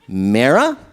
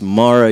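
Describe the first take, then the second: First: The name is said with a New Jersey pronunciation. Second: The name is said with its standard pronunciation. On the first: The speaker calls it wrong. "I'm from New Jersey. Sometimes I mispronounce her name" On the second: The speaker calls it right. "it's Mara, you son of a bitch"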